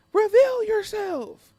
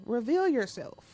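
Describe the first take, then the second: First: Much higher, louder and slow, hammed up; hammed-up demand to reveal yourself; dramatic challenge. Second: Said in the usual way. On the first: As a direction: call out like a theatrical villain hunter. Repeat, dramatic.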